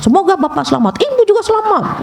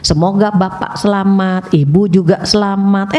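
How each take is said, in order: First: It is said in an angry, scolding tone. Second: It is said in a gentle, low, pleasant tone. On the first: The prayer no longer sounds pleasant. The speaker calls it wrong. "Coba kalau kita marah-marah" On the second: It sounds like a sincere prayer. The speaker calls it right. "Enak kan, Bu?"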